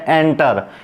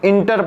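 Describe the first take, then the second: First: The first vowel sounds like a short 'e'. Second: The first vowel sounds like a short 'i'. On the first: The speaker calls it right. "जबकि ये वास्तविकता में क्या है" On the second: The speaker calls it wrong. "यहाँ पर बहुत जने इसको इंटर पढ़ते हैं"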